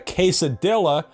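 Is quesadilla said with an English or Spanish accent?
English. It is said with an English accent. "if I say a quesadilla"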